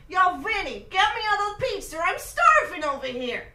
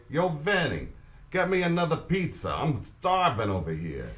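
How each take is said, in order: First: Loud, brash Italian American New Yorker; hammed-up Italian American accent, calling across the room. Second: Italian American accent. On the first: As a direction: shout it like a hungry guy from Brooklyn. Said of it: "practice my Italian accent". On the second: Shown as a demonstration. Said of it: "I want you to say".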